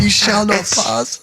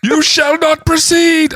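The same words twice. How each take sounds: First: Put-on Gandalf line in Danish accent; slow, stagey Danish-accented wizard. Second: Very high, loud, slow proclamation; booming wizard voice. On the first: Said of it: "Wait, in a Danish accent". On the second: Acted. Wrong Gandalf line.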